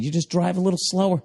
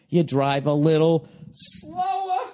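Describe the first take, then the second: First: Said in the usual way. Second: Slow repeat, stretching out "slower"; drawn-out emphasis. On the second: Real, not acted. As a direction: drag the word "slower" right out.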